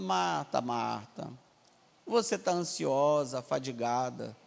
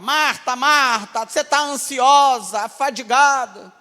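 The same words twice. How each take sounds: First: It is said in a gentle, loving tone. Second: It is said in a harsh, scolding tone. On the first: The speaker is lovingly guiding the listener. The speaker calls it right. "Mas o Senhor não está falando nesse tom. O Senhor está falando" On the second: The speaker is rebuking the listener. The speaker calls it wrong. "Como é que a expressão a gente coloca"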